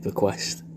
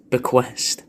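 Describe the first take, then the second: First: Savoured in a whisper; Bequest, whispered softly as if tasting it. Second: Said in the usual way. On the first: Shown as a demonstration. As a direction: breathe the word Bequest with no voice. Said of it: "which is a lovely word". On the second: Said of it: "it's a mad little word".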